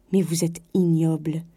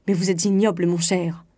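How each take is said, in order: First: Angry, held-down condemnation; cold outrage. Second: Indignant rebuke, trailing down; frantic indignation. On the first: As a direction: pronounce it with contained disgust. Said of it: "colère nouvelle". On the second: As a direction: fling a haughty insult. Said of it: "elle cherchait éperdument ses vêtements en répétant". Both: A narrator's reading.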